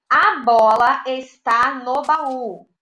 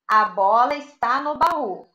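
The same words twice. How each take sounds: First: Each word slow and clear; teacher reading the sentence aloud; slow dictation read. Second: Said in the usual way. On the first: Shown as a demonstration. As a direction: read it slowly for children. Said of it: "teacher reads sentence". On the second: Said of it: "repeated at normal pace".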